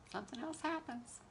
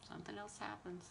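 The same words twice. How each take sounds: First: Softer, higher-pitched delivery; quiet, lilting punchline; wry aside. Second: Very soft, normal pitch; quiet, resigned-sounding echo; hushed repeat. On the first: Repeats the line, trailing softer. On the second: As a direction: drop to a near murmur. Repeats the line much softer. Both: Real, not acted.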